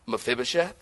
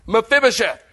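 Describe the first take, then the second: First: "Mephibosheth?" lower and softer, rising; soft questioning "Mephibosheth?"; gentle call. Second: "Mephibosheth" barked higher and louder; stern call of "Mephibosheth"; harsh call. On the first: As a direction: ask the name tenderly. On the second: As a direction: call the name like a summons. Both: Shown as a demonstration. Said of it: "tone is everything".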